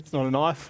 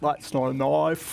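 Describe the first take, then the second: First: A natural Australian accent from a native speaker. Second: An exaggerated foreigner's Aussie accent, mouth wide open.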